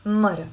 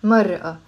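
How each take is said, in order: First: Mara said short and joined, no break before the a; "mara" with a light r and no glottal stop; Lebanese pronunciation. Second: Mar'a in two parts, a break before the final a; louder "mar'a" with a separated last a; written-form pronunciation. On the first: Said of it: "we say mara". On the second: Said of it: "we don't pronounce mar'a". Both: Shown as a demonstration.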